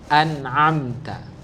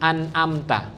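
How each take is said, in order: First: A glottal catch first, then a pharyngeal sound. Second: Both throat consonants are light glottal catches. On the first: The speaker calls it right. "Yang pertama hamzah, yang kedua ain" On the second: The speaker calls it wrong. "nyebutin pakai hamzah semuanya"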